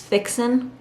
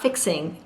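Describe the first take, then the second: First: The word ends without the final g sound. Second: The word ends with a full final g sound. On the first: "cutting off G's" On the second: "it's not fixing"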